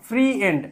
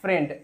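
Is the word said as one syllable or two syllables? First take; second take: two syllables; one syllable. First: It is split into two syllables, 'free' and 'end'. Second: It is said as one smooth syllable. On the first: The speaker calls it wrong. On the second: The speaker calls it right.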